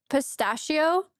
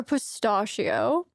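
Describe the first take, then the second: First: "pistachio" with the A of "cat"; "pistachio" with a flat-A STASH in the middle; short-A pistachio. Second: "pistachio" with an AH in the middle; "pistachio" with STAH as in "spa"; broad-A pistachio. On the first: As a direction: say "pistachio" as pih-STASH-ee-oh, questioning. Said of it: "or pistachio". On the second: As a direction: say "pistachio" slowly as puh-STAH-shee-oh. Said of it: "say them both ways". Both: Shown as a demonstration.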